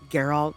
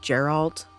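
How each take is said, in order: First: The name begins with a hard G sound. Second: The name begins with a soft J sound. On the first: The speaker calls it right. "the G instead of J" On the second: The speaker calls it wrong. "I was pronouncing it as Geralt in my head"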